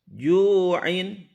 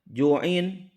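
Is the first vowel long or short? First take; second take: long; short. First: The first vowel is drawn out long. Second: The first vowel is short. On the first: The speaker calls it right. "Dibaca panjang dengan suara memanjang selama dua ketuk" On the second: The speaker calls it wrong. "Jangan dibaca ju'in"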